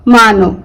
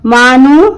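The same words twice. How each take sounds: First: मानो said with a final o sound; o ending. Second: मानू said with a final u sound; u ending. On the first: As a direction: end मानो on o. (मानो, ओ के साथ) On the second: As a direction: end मानू on u. (मानू, ऊ के साथ) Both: Shown as a demonstration. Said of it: "pronunciation दो होगा".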